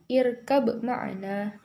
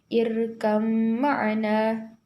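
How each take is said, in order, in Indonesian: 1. Huruf b diucapkan sebagai b. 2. Huruf b berubah menjadi m yang disengaukan dan ditahan. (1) "bukan irkab ma'ana" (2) "dibaca langsung masuk huruf mim disertai gunnah, yaitu berdengung"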